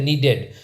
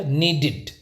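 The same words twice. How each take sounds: First: "नीडेड" with an open e in the ending, NEE-ded; wrong pronunciation. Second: "नीडेड" said NEE-did, short i in the ending; teacher's model "नीडेड" with -id ending; correct pronunciation. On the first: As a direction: end "नीडेड" in -ded, as in bed. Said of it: "needed is totally wrong". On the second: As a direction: end "नीडेड" in -did, as in lid. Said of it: "इसको कैसे बोला जाएगा". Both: Shown as a demonstration.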